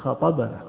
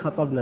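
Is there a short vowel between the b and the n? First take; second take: yes; no. First: The b is followed by a short a. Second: The b has no vowel after it. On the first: Someone else addressed us. The speaker calls it right. "لأن الرسول هو الذي يخطب" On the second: We did the addressing. The speaker calls it wrong. "يعني نحن اللي خطبنا ابن عباس، هذا مو صحيح"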